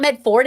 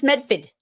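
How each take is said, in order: First: Medford said with a full r, "MED-ford"; wrong pronunciation. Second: Medford said as "MEF-fid"; correct pronunciation. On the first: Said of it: "It's not Medford". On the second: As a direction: Medford with the r dropped. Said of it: "it's Medford". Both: Shown as a demonstration.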